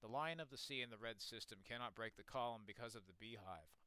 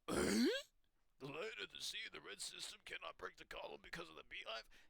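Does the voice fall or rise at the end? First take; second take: fall; rise. First: The voice falls at the end like a statement. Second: The voice rises at the end like a question. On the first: It states a fact. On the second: It questions what was just said.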